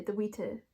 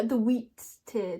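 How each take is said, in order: First: "the wheater" run together as one word, WEE-tuh; "the wheater" as one word, corrected; corrected name. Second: "wheat tear" as two words, slowly, wheat plus tear; misreading. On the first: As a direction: say "the wheater" as a single bird name. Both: Shown as a demonstration.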